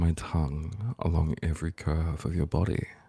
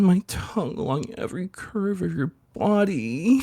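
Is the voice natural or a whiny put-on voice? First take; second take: natural; whiny. First: It is said in a natural, ordinary voice. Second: It is said in a whiny, put-on voice.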